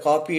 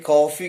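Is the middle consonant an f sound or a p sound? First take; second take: p sound; f sound. First: The middle consonant is a p sound. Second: The middle consonant is an f sound. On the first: The speaker calls it wrong. "we are pronouncing it as a copy. It is incorrect" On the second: The speaker calls it right. "Coffee is the correct uh, pronunciation"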